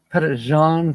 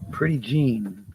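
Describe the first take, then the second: First: The first word sounds like 'petty', without an r. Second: The first word sounds like 'pretty', with an r. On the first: The speaker calls it right. "but it's Pettit" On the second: The speaker calls it wrong. "it's not pronounced the way you wrote it"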